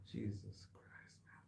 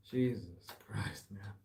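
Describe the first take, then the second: First: Slow breathy whisper, voice dropped away; whispered exasperation. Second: Said in the usual way. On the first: Real, not acted. Mechanic whispering to himself over the repair, slow and hushed. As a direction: breathe it out like a weary prayer.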